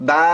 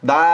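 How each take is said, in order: No difference in how they are said.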